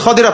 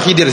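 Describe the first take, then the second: First: The first vowel is 'a'. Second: The first vowel is 'i'. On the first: This is the form found in the literature. The speaker calls it right. "Tapi yang benar apa? Al-Khadir" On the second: This is the form used in Indonesia. The speaker calls it wrong. "Tapi di Indonesia jadinya apa? Khidir"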